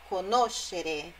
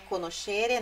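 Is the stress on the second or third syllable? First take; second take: second; third. First: The stress is on the second syllable. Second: The stress is on the third syllable. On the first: The speaker calls it right. "olha onde fica a sílaba forte... É a sílaba anterior a esse final, xerê. Ó, conoscere é o no" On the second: The speaker calls it wrong. "Não é conoscere"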